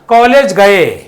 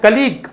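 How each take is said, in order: First: It sounds like 'college' followed by 'gay'. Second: It sounds like 'kuh-leeg' with a long ee. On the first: The speaker calls it wrong. "इसको बहुत लोग क्या उच्चारण पढ़ते हैं पता है" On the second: The speaker calls it right. "लेकिन इसको पढ़ते क्या"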